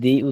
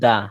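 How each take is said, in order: First: The word ends with an 'ee' vowel. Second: The word ends with an 'uh' vowel. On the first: The next word starts with a vowel. "আর একটা হচ্ছে দি উচ্চারণ হয়" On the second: The next word starts with a consonant. "একটা হচ্ছে দা"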